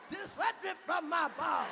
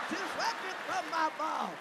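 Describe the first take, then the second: No difference in how they are said.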